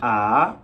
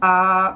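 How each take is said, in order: First: The pitch rises from mid to high. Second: The pitch stays high and level. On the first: "there's the second tone" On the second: "There's the first tone"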